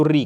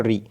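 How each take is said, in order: First: "री" held out into a continuous ई sound; लगातार उच्चारण. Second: "री" said short, vowel not held; short pronunciation. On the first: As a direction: stretch the vowel of "री". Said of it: "री का लगातार उच्चारण करने से". ("री" को लंबा खींचकर लगातार बोलें) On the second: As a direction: keep "री" brief. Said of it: "short में बोलना है". ("री" को छोटा, बिना खींचे बोलें) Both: Shown as a demonstration.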